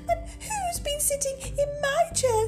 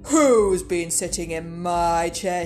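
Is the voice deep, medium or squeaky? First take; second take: squeaky; deep. First: It is said in a tiny, squeaky voice. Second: It is said in a deep, gruff voice.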